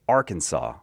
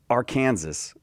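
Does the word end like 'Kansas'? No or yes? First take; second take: No; Yes. First: The word does not end like Kansas. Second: The word ends like the name Kansas. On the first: The speaker calls it right. "We say Arkansas" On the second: The speaker calls it wrong. "we don't say Arkansas. ... But it looks like Kansas"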